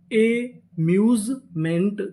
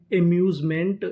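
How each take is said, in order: First: amusement stretched out slowly syllable by syllable; slow blended word. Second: Said in the usual way. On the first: Shown as a demonstration. (Amusement धीरे-धीरे खींचकर) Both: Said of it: "पूरी meaning".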